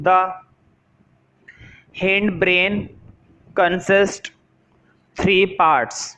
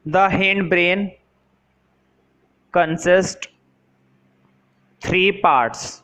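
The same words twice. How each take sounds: The two takes are said the same way.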